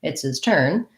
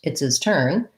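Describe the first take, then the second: The two takes are said the same way.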